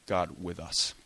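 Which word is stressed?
us. The stress is on us.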